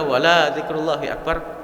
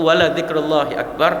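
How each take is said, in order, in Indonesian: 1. Vokal setelah l itu dipanjangkan. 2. Vokal setelah l itu pendek.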